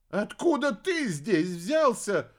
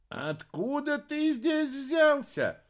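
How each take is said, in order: First: Higher, slow bewildered question; confused witch. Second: Very high, slow wondering question; drawn-out, marvelling; curious witch. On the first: Witch bewildered by the alligator, slow and confused. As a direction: ask it completely lost. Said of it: "окончательно растерялась Зарифа". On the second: Arimana asks the great chief, slow and wondering. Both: A narrator's reading.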